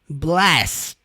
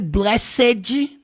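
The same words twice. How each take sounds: First: It is said as bless plus a D sound. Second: The ending is not a plain D after bless. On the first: The speaker calls it right. "Você vai falar bless e você vai colocar um D no final" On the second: The speaker calls it wrong. "a pronúncia não é blessed"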